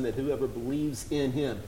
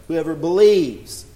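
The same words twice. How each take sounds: First: Said in the usual way. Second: "whoever believes" said slowly, louder, each word leaned on; "believes" drawn out and stressed, louder than the first time; slow emphatic repeat. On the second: Shown as a demonstration.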